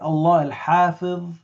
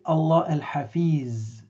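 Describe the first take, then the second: First: The final consonant is not a z sound. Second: The final consonant is a plain z sound. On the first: The speaker calls it right. "when we say" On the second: The speaker calls it wrong. "we don't say Allah al-Hafiz with a z"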